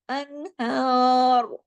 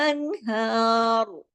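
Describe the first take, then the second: The two takes are said the same way.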